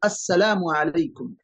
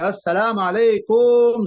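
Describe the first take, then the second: First: The greeting is said very quietly. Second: The greeting is said very loudly. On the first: The person greeted cannot hear it. "जिसको सलाम कर रहे हैं वो सुना ही नहीं" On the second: It wakes people who are sleeping. "जोर से आवाज लगा दी"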